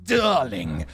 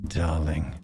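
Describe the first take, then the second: First: It is said in a rough, unsexy way. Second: It is said in a sexy, aggressive way.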